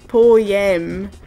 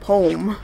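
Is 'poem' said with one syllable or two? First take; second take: two; one. First: It is said with two syllables, Scottish/British style. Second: It is said with one syllable, American style.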